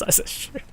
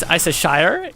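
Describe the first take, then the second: First: Shire cut down to a soft "shr"; sauce-name pronunciation. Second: Shire as "shy-er", rising at the end; full "eye" vowel in Shire; place-name pronunciation. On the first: Explaining the form for sauce to chat, reduced Shire. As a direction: say Shire as a quick, softer "sher". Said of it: "If it's Worcestershire sauce". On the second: Explaining the form for places to chat, full Shire. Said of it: "If it's a place". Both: Shown as a demonstration.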